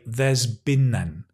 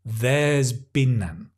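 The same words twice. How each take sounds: First: The word has is contracted onto there. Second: The word has is contracted onto there.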